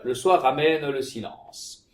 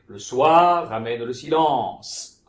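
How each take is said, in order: First: The vowels in soir and silence are short. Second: The vowels in soir and silence are long. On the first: The speaker calls it wrong. "une chose que je ne dis pas ici, que je ne fais pas, c'est de tenir compte des longues" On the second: The speaker calls it right. "que le en était long sur silence et le wa était long sur soir"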